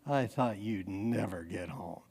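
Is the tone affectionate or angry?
affectionate. It is said in a sweet, affectionate tone.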